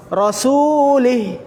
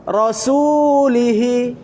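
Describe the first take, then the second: First: Rasulih, cut off short at the h; short ending. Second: Rasulihi, slow, with the final hi held long; Rasulihi, hi drawn out. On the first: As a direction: clip the end of Rasulih. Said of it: "Tapi kalau dirubah jadi kasrah panjang". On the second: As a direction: stretch the hi in Rasulihi. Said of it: "Kenapa hi-nya panjang?". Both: Shown as a demonstration.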